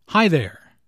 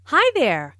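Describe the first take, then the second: First: "Hi" rises, "there" falls; greeting intonation demo. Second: Hi rising, there falling; friendly greeting tune. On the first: Shown as a demonstration. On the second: Acted. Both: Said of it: "It rises after hi and falls after there".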